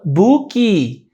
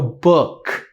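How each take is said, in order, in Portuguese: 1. A palavra termina com a vogal i acrescentada. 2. A palavra termina com o som de K. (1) "A gente fala" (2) "a gente não termina com o som de K"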